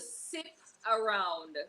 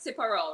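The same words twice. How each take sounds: First: The phrase is said at a normal, careful pace. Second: The phrase is said quickly, words running together.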